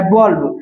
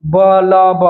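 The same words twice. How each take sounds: First: Said in the usual way. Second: "बल्ब" broken into ब, ल, ब; teacher splitting "बल्ब" into separate sounds, ब-ल-ब; sounded-out word. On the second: Shown as a demonstration. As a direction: sound out "बल्ब" piece by piece to show the ल. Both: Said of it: "लॉ का pronunciation आया".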